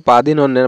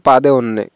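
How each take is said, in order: First: পাদিনন্যে with both n sounds; double n. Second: পাদে অন্যে, first n dropped; wrong form পাদে অন্যে, no n before the vowel; common mispronunciation. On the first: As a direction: keep the n after পাদি in পাদিনন্যে. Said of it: "এখানে দুইটো ন উচ্চারণ হবে". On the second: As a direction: split it as পাদে অন্যে with de for din. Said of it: "এটা কিন্তু সঠিক না". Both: Shown as a demonstration.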